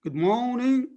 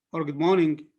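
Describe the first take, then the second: First: "morning" drawn out as maw / ning, rising; mor-ning division. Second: Said in the usual way. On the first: Shown as a demonstration. Teacher asking which is correct, split mor-ning. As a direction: hold the first syllable of "morning", then a separate ning. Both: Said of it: "Which one is the correct?".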